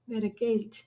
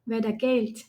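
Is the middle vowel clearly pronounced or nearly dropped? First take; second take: dropped; dropped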